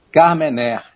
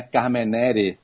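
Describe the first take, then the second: First: Carmener stopping on an open "né"; correct French pronunciation. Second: Carmenere with a sounded final "re"; wrong pronunciation. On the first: Expert teaches listeners, Carmener the French way. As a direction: say Carmener as "car-me-nér", final e dropped. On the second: Expert shows listeners the mistake, Carmenere with extra syllable. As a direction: say Carmenere as "car-me-né-re". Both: Shown as a demonstration. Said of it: "não é Carmenere".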